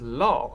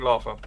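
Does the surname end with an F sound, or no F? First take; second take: no F; F sound. First: The name has no F sound. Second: The name ends with an F sound. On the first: This is how the owner says it. The speaker calls it right. "he says it is law" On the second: This is how most people guess it. The speaker calls it wrong. "most people think Larfa"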